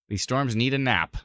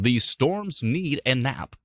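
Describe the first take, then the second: First: It is said in a normal speaking voice. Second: It is said in a booming announcer voice.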